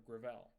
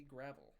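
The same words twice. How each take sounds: First: "Gravel" stressed on the second syllable, like gruh-VELL. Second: "Gravel" stressed on the first syllable, like GRAV-ul. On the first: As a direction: say "Gravel" to rhyme with propel. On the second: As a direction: say "Gravel" to rhyme with travel. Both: Shown as a demonstration. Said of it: "Is it Gravel or Gravel?".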